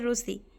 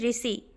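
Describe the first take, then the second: First: The first syllable sounds like ru. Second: The first syllable sounds like ri. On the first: This is the Odia way of saying it. "Odia में उसी को हम बोलते हैं रूसी। र में छोटा ऊ।" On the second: This is the Hindi way of saying it. "Hindi में हम बोलते हैं ऋषि"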